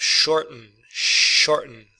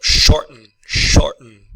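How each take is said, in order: First: Said in the usual way. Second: "shorten" with the T as a catch in the throat; "Shorten" with a glottal stop for the T, clearly demonstrated. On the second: Shown as a demonstration. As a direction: say "shorten" stopping the T in the throat, louder. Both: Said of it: "the T is a pause in, in the throat".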